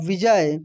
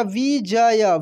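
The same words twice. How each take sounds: First: Said in the usual way. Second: विजय broken into vi, ja, ya; syllable by syllable. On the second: Shown as a demonstration. Teacher spelling for learners, विजय syllable by syllable. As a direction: sound out each syllable of विजय. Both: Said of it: "छोटी की मात्रा भी बोलकर".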